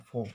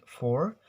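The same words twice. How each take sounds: First: "four" as "faw", no r at the end; "four" the British way, r dropped; British silent R. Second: "for" ending on a clear r; "for" the American way, r sounded; American R pronounced. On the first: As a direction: say "four" with an open vowel, r left silent. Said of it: "silence the R sound". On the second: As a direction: say "for" with the r curled and audible. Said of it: "In American". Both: Shown as a demonstration.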